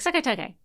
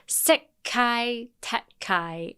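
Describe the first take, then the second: First: The phrase is said quickly and run together. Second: The phrase is said slowly and drawn out. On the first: "Just say it really fast" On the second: "He says it really slow"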